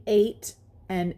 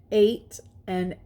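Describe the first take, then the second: No difference in how they are said.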